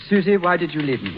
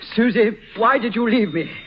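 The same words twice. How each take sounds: First: It is said flatly, without much emotion. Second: It is said with strong emotion.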